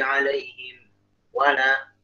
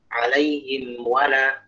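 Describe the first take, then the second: First: There is a short stop after 'alaihim'. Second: The words run straight on without any stop. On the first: The speaker calls it wrong. "itu sakta tuh, kayak sakta model. Jangan" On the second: The speaker calls it right. "Jadi langsung"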